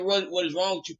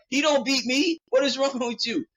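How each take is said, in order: First: Said in the usual way. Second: Indignant. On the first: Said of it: "she didn't say the". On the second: Retold or imitated. Pilar defending him against Pet, high indignant shout. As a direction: snap back in outrage. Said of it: "Pilar's like".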